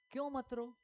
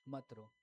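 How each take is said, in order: First: High-pitched rhetorical question; challenging question. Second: Low, soft-spoken statement; quiet consoling quote. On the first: Real, not acted. Preacher asks why Jesus said it, high challenging question. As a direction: lift the whole question high. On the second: Retold or imitated. Preacher repeats what Jesus said, quiet and low.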